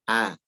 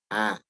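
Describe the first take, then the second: No difference in how they are said.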